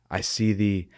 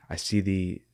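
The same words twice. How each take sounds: The two takes are said the same way.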